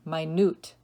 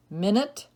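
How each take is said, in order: First: Minute as my-NOOT, second syllable stressed. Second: Minute as MIN-it, like the time unit; stress on first syllable. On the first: Teacher giving the tiny meaning, minute as my-NOOT. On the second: Teacher reading word list to students, minute as MIN-it. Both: Shown as a demonstration. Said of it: "give you both pronunciations".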